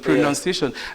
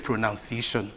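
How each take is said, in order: First: The second syllable sounds like 'nun'. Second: The second syllable sounds like 'noun'. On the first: The speaker calls it right. "the nouns O U will not come there" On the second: The speaker calls it wrong. "many of us will say pronunciation"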